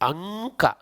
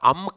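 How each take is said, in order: First: The nasal before k is a back ng. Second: The nasal before k is a closed-lip m. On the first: The speaker calls it right. "ಅಂಕ ಆಗಬೇಕು" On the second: The speaker calls it wrong. "ಅಮ್ಕ ಅಲ್ಲದು"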